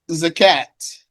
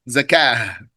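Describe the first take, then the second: First: The word ends with a T sound. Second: The word ends with an H sound. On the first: "you can pronounce it with a T" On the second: "you can pronounce it with a H"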